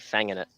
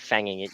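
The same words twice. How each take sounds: First: The final G sound of fanging is dropped. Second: The final G sound of fanging is pronounced. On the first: The speaker calls it right. "You'd say fanging it. So drop fanging it. Yeah, you drop the drop the G" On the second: The speaker calls it wrong. "you wouldn't say fanging it"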